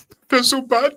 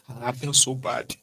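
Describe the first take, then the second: First: High, whiny mock sorrow for a stranger. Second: Said in the usual way. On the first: Friend whining over a dead stranger, mock sad high whine. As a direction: pitch it up like a fake mourner.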